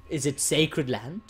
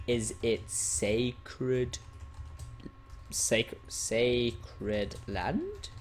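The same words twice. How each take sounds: First: Said in the usual way. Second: Very slow, broken-up, rising at the end; slow typing read-out. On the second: Real, not acted. Player types question about banned area, very slow read-out. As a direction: sound out each syllable as you type.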